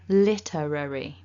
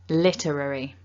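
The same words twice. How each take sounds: First: The word is said at medium speed. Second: The word is said quickly. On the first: "And then a bit quicker" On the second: "And nice and quickly"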